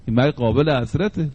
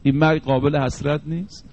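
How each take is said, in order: First: قابل حسرته said as a falling, settled statement; firm answer. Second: Ending قابل حسرت نیست؟ on a rising question tune; rhetorical question. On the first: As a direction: answer your own question with a firm downward close. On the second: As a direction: ask this مرگ line as a question with the voice lifting at the end. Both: Acted. Rhetorical question then answer.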